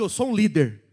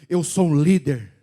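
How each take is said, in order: First: It is said plainly, without much force. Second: It is said forcefully, from deep within.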